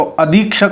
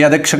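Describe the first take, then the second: First: अधीक्षक with a long "dhee"; correct pronunciation. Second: अधीक्षक said "a-dek-shak"; wrong pronunciation. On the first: Teacher gives students the real form, long ee. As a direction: lengthen the ee in अधीक्षक. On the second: Teacher reads out the faulty form, e-vowel mispronunciation. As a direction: put an e in the middle of अधीक्षक. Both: Shown as a demonstration. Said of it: "तो अधीक्षक होता है".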